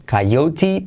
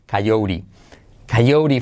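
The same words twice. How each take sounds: First: Coyote as "kai-OU-ti", rising; unsoftened T. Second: Coyote as "kai-OU-ri", falling; T turned soft R. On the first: Teacher setting up the rule, coyote as "kai-OU-ti". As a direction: say coyote with the T still hard. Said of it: "pero con la letra semiclave T". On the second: Teacher applying the rule, coyote as "kai-OU-ri". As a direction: say coyote with a tapped r, no t. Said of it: "T convertida en R suave". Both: Shown as a demonstration.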